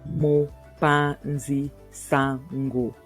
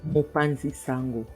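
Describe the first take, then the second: First: It is said slowly, broken into parts. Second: It is said quickly in one go. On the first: "I'll just break it down" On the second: "I'll say it fast"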